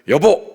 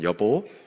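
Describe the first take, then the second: First: It is said angrily and very sharply. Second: It is said warmly and affectionately.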